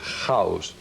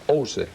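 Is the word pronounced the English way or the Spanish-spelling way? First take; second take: English; Spanish-spelling. First: It is pronounced as the English word sounds. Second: It is pronounced by Spanish letter sounds. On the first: The speaker calls it right. "which is the actual sound of the, of the English word" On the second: The speaker calls it wrong. "which really doesn't mean anything in English"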